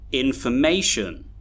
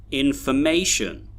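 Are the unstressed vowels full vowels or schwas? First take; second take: schwas; schwas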